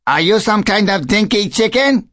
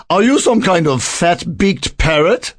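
First: High-pitched taunting mynah bird; cheeky question in a high bird voice. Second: High little bird retorting, rising at the end; indignant little bird, pitched up; tiny bird. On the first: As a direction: needle the newcomer in a high bird voice. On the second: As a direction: fire the question back in a small bird voice. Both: A narrator's reading.

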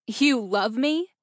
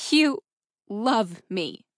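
First: Slow, incredulous rising question; scoffing disbelief. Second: Slow, broken up, falling at the end; slow echo. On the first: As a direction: throw it back in disbelief, pitch climbing. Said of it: "Cora scoffed in disbelief". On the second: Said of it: "She echoed it again, slowly". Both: A narrator's reading.

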